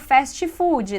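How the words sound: It is said with Brazilian Portuguese pronunciation. "em português a gente fala fast food"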